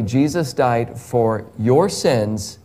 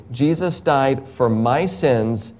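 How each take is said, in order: First: "your" said slowly with a lower falling pitch; stress on your. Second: "my" said slowly and leaned on; stress on my. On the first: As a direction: press "your" straight at the listener. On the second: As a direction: lean hard on "my", as in it was for me. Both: Shown as a demonstration. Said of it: "Can I say the same for you?".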